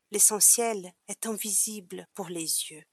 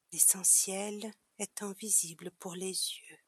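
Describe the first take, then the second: First: Said in the usual way. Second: Softer, repeated to himself; softly repeating to remember. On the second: A narrator's reading. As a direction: murmur it back to fix it in memory. (répété plus doucement, pour s'en souvenir) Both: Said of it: "répéta le petit prince afin de se souvenir".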